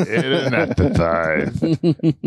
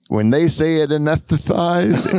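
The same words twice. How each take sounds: First: Slow lisping cartoon duck voice; Daffy Duck lisp. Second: Said in the usual way. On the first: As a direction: spit out the word anesthetized with a heavy lisp, slowly. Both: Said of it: "That's like a Daffy Duck".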